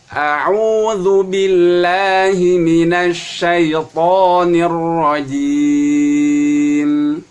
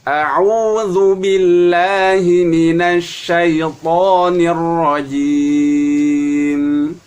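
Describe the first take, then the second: The two takes are said the same way.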